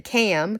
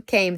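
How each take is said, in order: First: Cam read as spelled, short a, no long ay; misspelling read aloud. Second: Said in the usual way. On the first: Shown as a demonstration. Reading Goldilocks' misspelled letter to viewers, cam as spelled. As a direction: say cam, rhyming with jam, not came. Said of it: "came, the E is dropped". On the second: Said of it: "the E is dropped".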